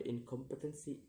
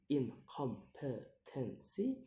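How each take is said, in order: First: Said in the usual way. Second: "incompetency" slowly split into syllables; slow, separated syllables on "incompetency". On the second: Shown as a demonstration. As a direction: sound out "incompetency" piece by piece. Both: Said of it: "count the word syllable backwards".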